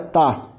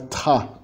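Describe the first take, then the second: First: The t is released without a puff of air. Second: The t is released with a puff of air. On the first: The speaker calls it right. "T mais A é tá" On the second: The speaker calls it wrong. "não é tá"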